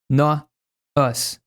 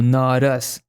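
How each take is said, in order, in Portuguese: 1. Há uma pausa entre as duas palavras. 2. As duas palavras são ditas juntas, sem pausa. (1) "Ele pausa" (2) "Ele não diz not us ou not us"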